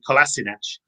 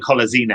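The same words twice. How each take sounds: First: The name is pronounced in an English way. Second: The name is pronounced in a German way. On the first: This is the version the player adopted after arriving. "He anglicised it when he arrived" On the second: This is how people in Germany say it. "in Germany, ... they would say"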